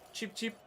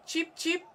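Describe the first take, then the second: First: High, soft little chirp; bird chirp. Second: Bird chirp. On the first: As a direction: peep like a small bird. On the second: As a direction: chirp it out like a sparrow. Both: Pretend. Imitating chirping birds.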